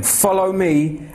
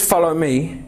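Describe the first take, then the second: First: Slow solemn call. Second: Said in the usual way. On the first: Shown as a demonstration. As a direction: FOLLOW drawn out slow and solemn. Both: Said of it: "when he says, "Follow me".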